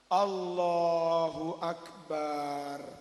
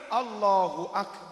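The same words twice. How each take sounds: First: The vowel in 'ba' is drawn out long. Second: The vowel in 'ba' is kept short. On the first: The speaker calls it wrong. "Takbir baknya dipanjangkan, batal" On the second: The speaker calls it right. "Yang benar"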